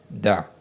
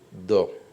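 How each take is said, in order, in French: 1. La consonne est simple, avec une voyelle claire. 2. La consonne est emphatique, avec une voyelle sombre. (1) "on ne les lit pas ça" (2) "la deuxième lettre emphatique"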